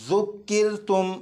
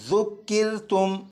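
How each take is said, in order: No difference in how they are said.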